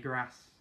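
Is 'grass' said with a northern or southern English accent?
northern. It is said with a northern English accent.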